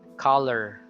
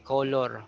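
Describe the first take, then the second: First: The second syllable has a reduced schwa vowel. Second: The second syllable has a full, clear vowel. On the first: The speaker calls it right. "So it's just lur" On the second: The speaker calls it wrong. "you don't say color"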